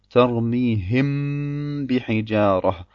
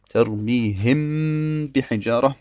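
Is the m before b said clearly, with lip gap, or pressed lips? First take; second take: pressed lips; pressed lips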